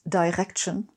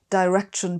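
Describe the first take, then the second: First: The R is made in the throat. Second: The R is made with the tongue tip.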